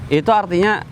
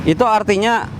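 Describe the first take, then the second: No difference in how they are said.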